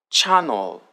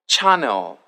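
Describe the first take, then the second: No difference in how they are said.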